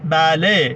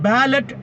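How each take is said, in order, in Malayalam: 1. ഈ വാക്ക് T ഇല്ലാതെ സ്വരാക്ഷരത്തിൽ അവസാനിക്കുന്നു. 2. ഈ വാക്ക് വ്യക്തമായ T ശബ്ദത്തിൽ അവസാനിക്കുന്നു.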